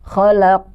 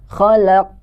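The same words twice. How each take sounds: Both takes have the same delivery.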